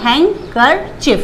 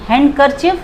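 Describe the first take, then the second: First: The d is silent in the word. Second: The d is sounded in the word. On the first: The speaker calls it right. "डी को silent रख देना" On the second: The speaker calls it wrong. "हैंडकरचिफ गलत है"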